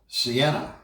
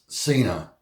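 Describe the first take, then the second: First: The name is said with three syllables. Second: The name is said with two syllables. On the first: The speaker calls it wrong. "I was saying it wrong" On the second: The speaker calls it right. "It's called Cena"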